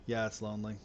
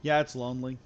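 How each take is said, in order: First: Put-on sad boy. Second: Said in the usual way. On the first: Shown as a demonstration. Streamer joking about space loneliness, mopey sad boy voice. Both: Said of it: "sad boy noises".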